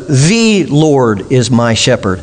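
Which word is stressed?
The. The stress is on "The".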